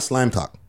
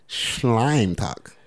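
First: The first word begins with a plain s sound. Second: The first word begins with an sh sound. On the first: The speaker calls it wrong. "Not Slime Talk" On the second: The speaker calls it right. "Because that's the S-H"

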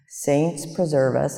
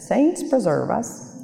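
First: It is said in the speaker's ordinary accent. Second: It is said in an Irish accent.

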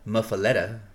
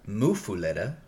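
First: The U vowel is short, as in 'muff'. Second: The U vowel is long, as in 'foo'. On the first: This is the form an online source gives. "Google says muffaletta" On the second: This is the form some locals use. "Foo, long U"

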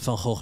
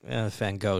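First: The name is pronounced the Dutch way. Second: The name is pronounced the English way. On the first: The speaker calls it right. "I'm just going to keep to the Dutch pronunciation here" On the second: The speaker calls it wrong. "Van Gogh really doesn't cut it"

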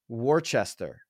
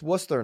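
First: The name is sounded out as it is spelled. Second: The name is said in a shortened form. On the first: The speaker calls it wrong. "A lot of people would read that Worcester" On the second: The speaker calls it right. "It's Worcester"

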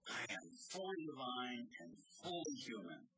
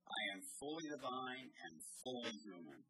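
First: It is said with fervent, eager zeal. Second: It is said with a commanding, authoritative tone.

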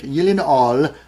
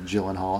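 First: The name is said in a non-American way. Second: The name is said in an American way. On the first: This is the speaker's preferred way to say the name. "Got to say it that way" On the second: This is a common way to say the name in America. "Some people call him Gyllenhaal, and that's fine as well, especially if you're here in America"

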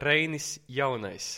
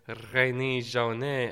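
First: The name is said the Latvian way. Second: The name is said the French way.

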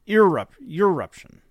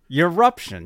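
First: The word begins with an 'ee' sound. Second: The word begins with a 'yor' sound. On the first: The speaker calls it right. "But it's eruption, right?" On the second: The speaker calls it wrong. "I've always pronounced it Yoruption, which is totally wrong"

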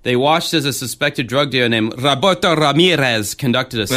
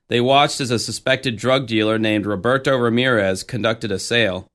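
First: The name is said in a put-on Spanish accent. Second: The name is said with plain English pronunciation.

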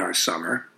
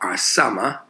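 First: It is said in a plain, neutral accent. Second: It is said in a strong local regional accent.

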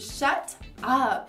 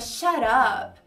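First: The T is released clearly as a stop. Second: The T becomes a quick R-like flap. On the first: "Primeira pronúncia é fazendo o som do T, claramente" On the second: "você pode transformar o T num R aí no som"

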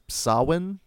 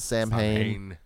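First: The name is said the traditional way. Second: The name is said the common way. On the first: This is the technically correct form. The speaker calls it right. "technically it's Samhain, I believe, the correct pronunciation" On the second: This is how most people say it. The speaker calls it wrong. "everyone pronounces it Samhain"

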